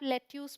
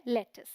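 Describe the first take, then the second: First: लेट्यूस said as "let-YOOS"; long "yoo" ending in लेट्यूस; misread by spelling. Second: लेटिस said as "LET-is"; short "is" ending in लेटिस; teacher's correction to लेटिस, no "yoo"; correct pronunciation. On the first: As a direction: read लेट्यूस just as it is spelt. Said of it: "spelling के according जाएंगे तो". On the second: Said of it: "but ये है लेटिस". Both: Shown as a demonstration.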